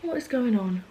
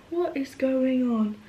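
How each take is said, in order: First: Said in the usual way. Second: High, slow disbelieving question; drawn-out repeat. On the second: Real, not acted. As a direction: stretch out each word, pitched up. Drawn-out repeat about her fringe.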